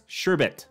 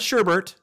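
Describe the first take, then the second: First: The second syllable has no r sound. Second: The second syllable has an r sound. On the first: The speaker calls it right. "It's Sherbet" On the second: The speaker calls it wrong. "Not Sherbert"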